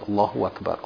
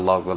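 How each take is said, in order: First: The phrase is said slowly and deliberately. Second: The phrase is said quickly and rushed. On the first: The speaker calls it right. "say it slowly" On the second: The speaker calls it wrong. "So try to avoid this"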